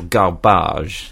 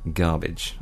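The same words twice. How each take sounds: First: The word is said with a French pronunciation. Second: The word is said with an English pronunciation.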